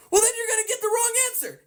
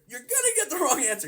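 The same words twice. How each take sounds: First: High, fast, exasperated "wrong answer"; emphatic correction. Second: Said in the usual way. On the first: Real, not acted. Teacher to viewers about wrong formulas, exasperated emphatic. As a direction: snap it out, much higher and quicker.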